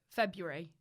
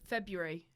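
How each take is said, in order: Both takes have the same delivery.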